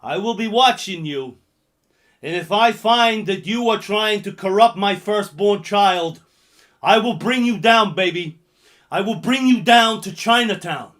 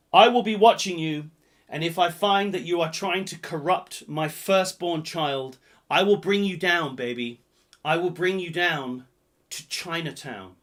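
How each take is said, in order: First: Loud threatening movie line; hammed-up loud threat; loud menacing quote. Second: Lightly menacing character voice; lighter film quote voice. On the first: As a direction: boom the threat at them. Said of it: "number five goes like this". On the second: Acted. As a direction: repeat the threat, less loud. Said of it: "That's exactly how he says it".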